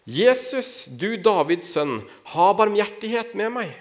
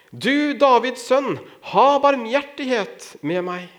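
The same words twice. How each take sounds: First: High, drawn-out plea without full volume; calling out. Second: Loud, high, stretched-out plea; insistent crying out. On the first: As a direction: read it as a blind beggar calling for mercy. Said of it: "satte han i å rope". (ropende bønn, lyst og langtrukkent) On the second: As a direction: call out urgently for mercy, slow and raised. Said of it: "han ropte bare enda høyere". (høyt, inntrengende rop, langtrukkent) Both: A narrator's reading.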